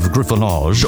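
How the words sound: The word is pronounced the French way. "a French pronunciation of griffonage"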